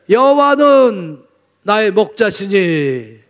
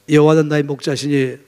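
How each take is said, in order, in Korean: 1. 천천히, 깊은 감정을 담아 읽습니다. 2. 빠르게, 감정 없이 읽습니다. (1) "너무 감격했어" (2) "이렇게 금방 읽을 게 아니라니까요. 그렇게 아주 감정도 없이 읽을 게 아니라니까요"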